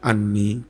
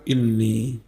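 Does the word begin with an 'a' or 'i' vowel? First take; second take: a; i. First: The word begins with an 'a' vowel. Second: The word begins with an 'i' vowel. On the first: This is the majority reading. "membaca dengan menfathah hamzahnya anni" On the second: This is a minority reading. "bikasriha dengan mengkasroh hamzah"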